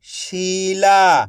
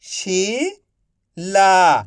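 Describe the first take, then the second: First: Said in the usual way. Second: Slow stretched reading. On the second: Shown as a demonstration. Teacher reading to pupils, slowly stretched. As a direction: draw the word out slowly. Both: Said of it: "मैं किस तरीके से".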